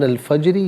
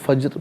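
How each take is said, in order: First: The word ends with a short i vowel. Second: The word ends on the consonant r. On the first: The reading continues without stopping. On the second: The reader stops at this word.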